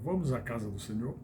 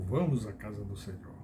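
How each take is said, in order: First: It is said as an inviting question. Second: It is said as a flat statement.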